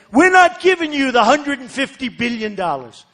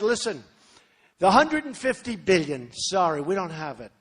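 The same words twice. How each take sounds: First: Put-on blunt old way. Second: Softer version. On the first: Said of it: "So in the old days". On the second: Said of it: "You gotta be a little softer". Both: Shown as a demonstration.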